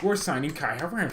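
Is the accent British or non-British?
non-British. It is said in a non-British accent.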